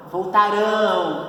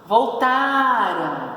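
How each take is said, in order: First: "Voltarão" with the stress on the final "rão". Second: "Voltaram" slow, with the stress on "ra". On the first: Teacher contrasting the stressed syllable, future form. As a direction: land on "rão" at the end of "Voltarão". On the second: Teacher contrasting the stressed syllable, past form. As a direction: say "Voltaram" slowly, leaning on "ra". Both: Shown as a demonstration. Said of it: "Olha a diferença da sílaba tônica".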